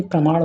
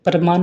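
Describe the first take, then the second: First: प्रमाण ending in a curled ṇ; retroflex ṇa. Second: प्रमाण mispronounced as "pramaan", plain n; dental na. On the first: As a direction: curl the tongue back to finish प्रमाण. (प्रमाण के अंत में "ण" बोलें) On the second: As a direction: end प्रमाण with the tongue forward. (प्रमाण को "प्रमान" बोलें) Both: Shown as a demonstration. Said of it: "अड़ा और ना संबंधित".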